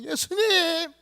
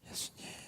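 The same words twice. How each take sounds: First: The name is called out loudly. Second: The name is called quietly.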